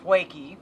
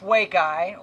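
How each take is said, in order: First: The name ends with an 'ee' sound. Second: The name ends with an 'eye' sound. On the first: This is a joking, sarcastic version of the name. "if you're a sarcastic jackass like me" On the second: This is the name as intended. "it's it's Wake Eye"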